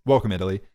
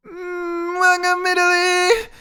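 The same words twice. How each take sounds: First: Said in the usual way. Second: Hammed-up Italian accent, very high and drawn out; mock traditional Italian accent. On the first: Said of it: "I'll do the accent". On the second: Shown as a demonstration. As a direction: do a badly faked, high-pitched Italian accent. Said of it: "that was traditional Italian".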